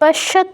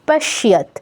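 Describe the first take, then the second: First: The y sound after sh is missing. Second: The y sound after sh is clearly heard. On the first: The speaker calls it wrong. "পশ্যত নয় কিন্তু" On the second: The speaker calls it right. "ইয়টা স্পষ্ট হবে"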